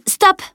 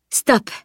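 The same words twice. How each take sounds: First: Sharp high, loud cry; shouted. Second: Repeated command. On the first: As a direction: cut someone off with a sudden high shout. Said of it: "cria Camille". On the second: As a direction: say it once more, raised but controlled. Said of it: "reprit-elle". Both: A narrator's reading.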